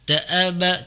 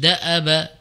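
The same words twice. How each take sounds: First: The vowel after the glottal stop is long. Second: The vowel after the glottal stop is short. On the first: The speaker calls it wrong. "jangan dibaca da'aba, da'aba. Jadi uh, seolah-olah terbaca panjang" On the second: The speaker calls it right. "Jadi da'aba pendek ya"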